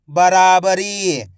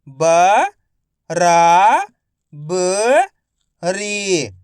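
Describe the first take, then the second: First: Said in the usual way. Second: बराबरी drawn out slowly, ब-रा-ब-री; slow syllable by syllable. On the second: Shown as a demonstration. (धीरे-धीरे अक्षर-अक्षर बोलें)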